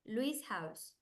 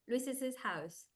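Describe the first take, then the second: First: The name ends with a single s sound. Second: The name ends with an extra es syllable.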